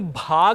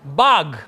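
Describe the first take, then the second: First: The first consonant has a breathy puff of air. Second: The first consonant has no breathy puff of air. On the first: The speaker calls it wrong. "ये भाग नहीं है" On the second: The speaker calls it right. "ये ब है।"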